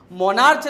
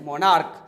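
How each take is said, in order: First: मोनार्च ending in a "ch" sound; wrong pronunciation. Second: मोनार्क lower, ending in a hard "k"; correct pronunciation. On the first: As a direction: say मोनार्च louder, with final च. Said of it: "मोनार्च नहीं". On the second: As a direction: drop the pitch on मोनार्क, final क. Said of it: "सीएच का sound क से". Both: Shown as a demonstration.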